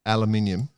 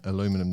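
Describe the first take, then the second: First: "aluminium" as al-uh-MIN-ee-um; "aluminium" with five syllables; British pronunciation. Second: "aluminum" as uh-LOO-mi-num; "aluminum" with four syllables; American pronunciation. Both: Shown as a demonstration. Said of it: "that conversation, we could argue".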